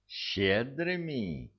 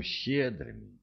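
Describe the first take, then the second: First: High, drawn-out indignant echo; incredulous irritation, pitched high and slow; flaring up. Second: Said in the usual way. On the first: A narrator's reading. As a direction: throw the word back, stretched and indignant. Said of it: "не на шутку вспылил Дирк". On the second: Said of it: "не на шутку вспылил".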